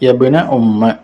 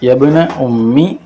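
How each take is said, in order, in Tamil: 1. இறுதி உயிர் 'a' ஒலியாகும். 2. இறுதி உயிர் 'i' ஒலியாகும். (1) "ஃபத்ஹிஹா" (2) "கஸ்ரில் மீமி"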